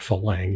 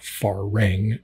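First: The middle consonant sounds like an L. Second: The middle consonant sounds like an R. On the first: The speaker calls it wrong. "Not really a Falang" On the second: The speaker calls it right.

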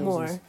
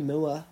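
First: The vowel is a plain 'or' sound. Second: The vowel glides from 'oo' to 'uh'. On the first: Most people say it this way. "loads of people say more for the hills" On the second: This is a Yorkshire way of saying it. "I still say moor"

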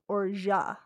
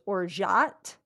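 First: The word is said with a French pronunciation. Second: The word is said with an American pronunciation. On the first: "in French, it's pronounced orgeat" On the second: "in the U.S. it said it's pronounced orgeat"

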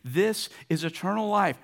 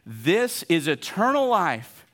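First: It is read calmly, without extra energy. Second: It is read with lots of enthusiasm.

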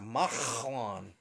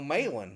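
First: The middle consonant is a harsh guttural throat sound. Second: The middle consonant is plain, with no throat friction. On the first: The speaker calls it right. "that's a chait in Hebrew" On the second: The speaker calls it wrong. "there ain't no Malan"

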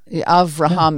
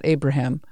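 First: The name is said with a v sound. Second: The name is said with a b sound. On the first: This is the original Hebrew form of the name. The speaker calls it right. "Avraham yeah. is his name in Hebrew" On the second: This is not the Hebrew form of the name. The speaker calls it wrong. "and not Abraham"

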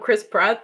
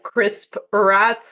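First: The p sound starts the second word. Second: The p sound ends the first word. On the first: "you know, Chris Pratt" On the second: "if you kind of say it differently, it could be like Crisp Pratt"

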